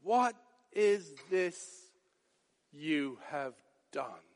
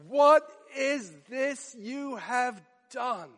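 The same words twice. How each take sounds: First: Much softer and lower, slow; stunned hush. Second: Slow, shocked demand; horrified question. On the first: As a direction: let the horror sink to a near hush. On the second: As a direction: ask it aghast, slowly. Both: Retold or imitated. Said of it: "hear the shock and horror and dismay".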